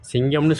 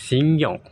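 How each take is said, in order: First: Said in the usual way. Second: 'சிங்கம்' higher and stressed, set apart as the actor says it; actor's pronunciation. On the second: Shown as a demonstration. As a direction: lift and punch 'சிங்கம்' as a lone word. ('சிங்கம்' என்று நடிகர் பாணியில் உயர்த்தி அழுத்தி உச்சரிப்பு) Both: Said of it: "சிங்கம்னு சொல்ல மாட்டார்".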